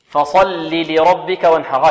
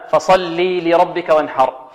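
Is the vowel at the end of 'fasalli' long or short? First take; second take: short; long. First: The final vowel of fasalli is short. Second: The final vowel of fasalli is long. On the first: The speaker calls it right. "هكذا" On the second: The speaker calls it wrong. "هنا خطأ يقع من بعض طلبة القرآن"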